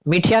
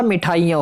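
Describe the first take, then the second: First: "मिठिया" squeezed to "mithiya"; missing aa. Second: "मिठाइयाँ" with full "thaa-i"; long aa. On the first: Teacher showing students the mistake, मिठिया said "mithiya". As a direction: say मिठिया without the long aa. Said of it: "मिठिया नहीं होता". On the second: Teacher giving students the correction, मिठाइयाँ with long "thaa". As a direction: say मिठाइयाँ as "mithaaiyaan". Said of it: "मिठाइयाँ हो गए". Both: Shown as a demonstration.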